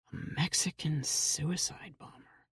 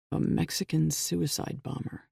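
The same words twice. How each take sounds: First: Whispered, under the breath; muttered to himself. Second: Said in the usual way. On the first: A narrator's reading. Jack walking down the hallway mutters to himself in a whisper. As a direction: murmur it to yourself, barely voiced. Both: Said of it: "he muttered to himself".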